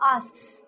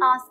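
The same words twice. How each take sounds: First: The final s sound is clearly pronounced. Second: The final s sound is left out. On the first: The speaker calls it right. "you would have to pronounce the s at the end" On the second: The speaker calls it wrong. "people tend to miss out the s at the end"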